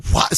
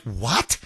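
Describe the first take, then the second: First: Said in the usual way. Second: Stunned what. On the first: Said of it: "I'm like". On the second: Retold or imitated. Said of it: "So I'm like".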